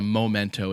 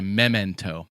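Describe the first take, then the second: First: The first syllable does not sound like 'mem'. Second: The first syllable sounds like 'mem'. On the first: The speaker calls it wrong. "it's not called a memento" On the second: The speaker calls it right. "Mem like memory"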